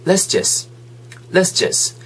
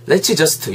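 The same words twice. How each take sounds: First: "let's just" run together as one quick chunk; linked and reduced. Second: "let's just" with each word fully separate. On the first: Teacher modelling for learners, "let's just" quickly linked. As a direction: blend "let's just" into "les-jus", final t dropped. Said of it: "빨리 그냥 여름 되면 let's just". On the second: Teacher showing learners what to avoid, "let's just" word by word. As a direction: say "let's just" carefully, every consonant sounded. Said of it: "욕하지 마시고 그냥". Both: Shown as a demonstration.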